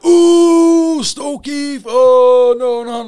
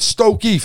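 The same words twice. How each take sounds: First: High, loud mocking groan; mock dread. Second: Said in the usual way. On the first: Whole wing jeering at the new boy's transfer, mock horror. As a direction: tease him like it's a death sentence. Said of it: "everyone on the wing". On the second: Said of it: "He went".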